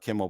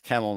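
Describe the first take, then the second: First: The first vowel sounds like the one in 'bid'. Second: The first vowel sounds like the one in 'bed'. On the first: The speaker calls it wrong. "not Kimmel" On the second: The speaker calls it right. "it's Kemmel"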